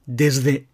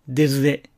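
First: The s sound is voiced, like a z. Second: The same.

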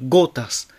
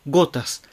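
Both takes have the same delivery.

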